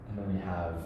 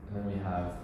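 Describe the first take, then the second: No difference in how they are said.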